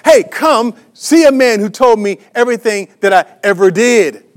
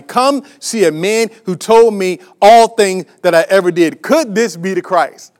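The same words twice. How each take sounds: First: Mildly excited retelling, a touch louder; enthusiastic. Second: Said in the usual way. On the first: Retold or imitated. Preacher retells the woman calling her town, mildly enthusiastic. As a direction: lift it with her eager joy, lightly. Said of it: "she went out enthusiastically". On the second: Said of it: "she said to everybody".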